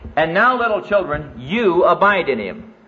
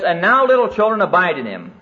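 First: It is read more slowly. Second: It is read at a normal pace.

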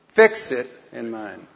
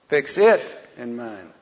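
First: The word 'fix' is said loudest. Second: The word 'it' is said loudest. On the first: "Say the first word loud and then the other two not so loud" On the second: "Then the second word loud and the rest of the other three not so loud"

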